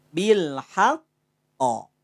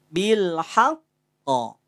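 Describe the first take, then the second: No difference in how they are said.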